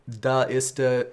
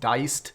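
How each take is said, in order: First: The letters 'da' and 'i' form separate syllables. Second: The letters 'dai' form one gliding syllable. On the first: "So I I say da ista" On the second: "maybe it would be pronounced diced"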